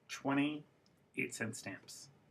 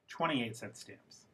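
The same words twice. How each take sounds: First: The phrase is split into two groups by a pause. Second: The phrase is said as one unbroken group. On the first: "Two thought groups" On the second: "One thought group"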